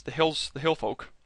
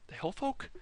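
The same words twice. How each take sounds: First: Said in the usual way. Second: Much higher, softer unsure rise on hill folk; checking a half-remembered term aloud; doubtful question. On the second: Shown as a demonstration. Vlogger doubts the name for the tribes, rising unsure question. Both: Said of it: "Oh, that might not be right".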